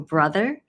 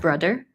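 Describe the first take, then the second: First: The middle consonant is a soft TH sound. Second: The middle consonant is a hard D sound. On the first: "the one in the or brother" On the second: "Hong Kongers will make a D instead for that sound"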